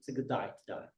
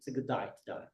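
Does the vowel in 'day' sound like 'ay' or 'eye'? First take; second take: eye; eye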